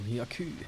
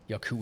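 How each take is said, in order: First: The name is said with a French accent. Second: The name is said in the speaker's normal way.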